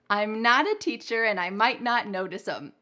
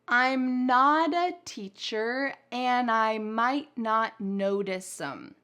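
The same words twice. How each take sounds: First: The sentence is spoken at a somewhat faster pace. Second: The sentence is spoken at a relatively slow pace. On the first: "then we'll say it a little bit faster together" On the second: "I'm going to say it relatively slowly first"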